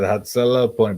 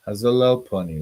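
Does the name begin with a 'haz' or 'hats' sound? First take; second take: hats; haz. First: The name starts with a ts sound. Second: The name starts with a plain z sound. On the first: The speaker calls it right. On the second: The speaker calls it wrong.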